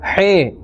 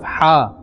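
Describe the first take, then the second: First: The letter name ends in an 'eh' vowel. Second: The letter name ends in an 'ah' vowel. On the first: The speaker calls it wrong. "he instead of ha" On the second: The speaker calls it right. "instead of ha"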